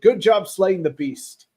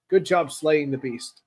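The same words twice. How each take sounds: First: Louder, punchy read of "Good job slaying the beast"; emphatic read. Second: Said in the usual way. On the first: Acted. Reading out a viewer's chat comment.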